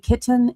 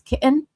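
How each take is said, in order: First: The middle T is clearly pronounced. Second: The middle T is dropped. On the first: The speaker calls it right. "like a kitten is" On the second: The speaker calls it wrong. "you don't say T's"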